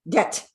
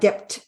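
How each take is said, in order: First: The word is said with no b sound. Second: The word is said with a b sound. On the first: The speaker calls it right. "the B is silent" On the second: The speaker calls it wrong. "not debt"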